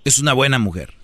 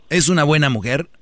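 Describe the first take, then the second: First: "Es una buena mujer" as a statement, falling at the end; firm confirmation with a falling finish; confirming statement. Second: "Es una buena mujer" as a question, rising at the end; probing question with a rising finish. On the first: Repeats the answer as a statement. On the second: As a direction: ask "Es una buena mujer", lifting the final word. Asks, then confirms it as statement. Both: Real, not acted.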